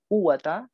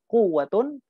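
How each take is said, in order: First: The word ends in a short -a. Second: The word ends in -un. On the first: The noun is indeclinable with fatha after a repeated la. "dibaca mabni fathah, dibaca a" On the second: The noun is read in the nominative case. "atau dibaca rafa"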